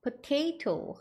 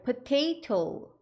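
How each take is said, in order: Both takes have the same delivery.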